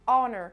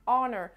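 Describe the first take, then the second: First: It is said with an American accent, throaty ending. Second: It is said with an American accent, throaty ending.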